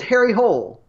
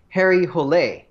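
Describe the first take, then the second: First: The surname is pronounced the English way. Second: The surname is pronounced the Norwegian way. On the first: The speaker calls it wrong. "as it looks on the page in the movie with an English accent" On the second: The speaker calls it right. "it is technically a Norwegian name that should be Harry Hole"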